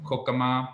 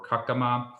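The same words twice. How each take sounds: First: Kokama with o in the first syllable; debated pronunciation. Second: Kakama with a in the first syllable; alternative pronunciation. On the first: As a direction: sound a short vowel after the k in Kokama. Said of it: "should it be pronounced Kokama". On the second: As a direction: open the first vowel of Kakama to a. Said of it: "or Kakama". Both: Shown as a demonstration.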